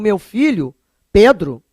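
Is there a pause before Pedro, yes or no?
yes. There is a pause before Pedro.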